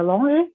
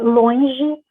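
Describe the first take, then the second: First: The nasal vowel is a single plain vowel. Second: The nasal vowel glides into a diphthong.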